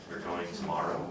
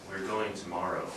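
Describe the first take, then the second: Both takes have the same delivery.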